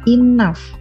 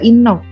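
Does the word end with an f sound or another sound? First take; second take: f sound; another sound. First: The final gh is sounded as f. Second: The final gh is not sounded as f. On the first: The speaker calls it right. "G H ini berubah menjadi F di lafalnya" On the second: The speaker calls it wrong. "Jangan dibaca enough"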